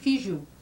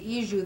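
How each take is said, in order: First: The word begins with an f sound. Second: The word begins with a vowel, without f. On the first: "they say fiju, that f sound" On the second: "they don't say iju"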